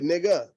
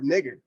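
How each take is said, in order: First: The final R sound is dropped. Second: The final R sound is pronounced.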